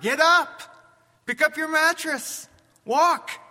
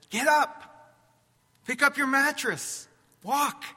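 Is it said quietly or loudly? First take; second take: loudly; quietly. First: It is said louder. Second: It is said at normal loudness.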